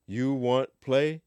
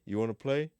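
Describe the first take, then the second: First: Slow, higher word-by-word question; slow literal rendering. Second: Said in the usual way. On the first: Shown as a demonstration. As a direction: drag it out as a literal gloss. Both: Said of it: "You know, you wa".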